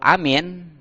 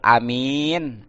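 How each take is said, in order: First: Both vowels are short. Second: The second vowel is drawn out long. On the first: It means safe. "Semua pendek ya" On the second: It means trustworthy. "alifnya pendek. Tapi itunya panjang"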